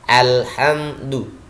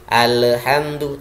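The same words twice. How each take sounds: First: The L is held smoothly without bouncing. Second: The L is released with a bouncing echo. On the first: The speaker calls it right. "lentur tapi tidak boleh memantul" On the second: The speaker calls it wrong. "Tidak boleh"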